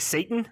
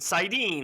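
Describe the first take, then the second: First: The word sounds like 'Satan'. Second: The word sounds like 'sardine' without s. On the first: This is how it was read from the page. "So I read it as Satan, like Satan" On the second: This is how the audiobook says it. "Then I heard the audiobooks and Sidene"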